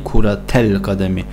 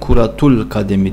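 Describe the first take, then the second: First: The vowel after 'kurat' is 'a'. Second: The vowel after 'kurat' is 'u'. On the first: The speaker calls it right. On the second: The speaker calls it wrong. "kuratul kademi değil"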